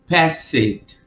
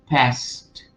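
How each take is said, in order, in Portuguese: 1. O final é pronunciado como uma sílaba extra. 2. O final é pronunciado como um som de t simples. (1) "Eles vão falar passed. E não é isso" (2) "esse ed, você vai ler como um T. Então é past"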